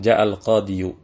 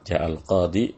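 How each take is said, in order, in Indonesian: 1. Kata itu diakhiri dengan bunyi 'yu' tambahan. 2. Kata itu diakhiri polos dengan 'i' panjang. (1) "sebenarnya bisa kita ngomong ... hanya saja berat"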